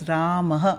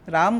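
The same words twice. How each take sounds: First: The name ends with a breathy ah sound. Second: The name ends on a bare m sound. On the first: The speaker calls it right. "सही pronunciation है राम, ... वो विसर्ग का pronunciation है अह" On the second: The speaker calls it wrong. "राम गलत है"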